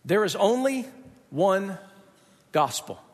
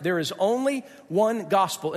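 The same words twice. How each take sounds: First: "There is only" then a pause, "one" then a pause, "gospel" dropped low; slow, pausing for weight. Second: Said in the usual way. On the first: Shown as a demonstration. Preacher spacing out the core claim to his church, slow and weighty.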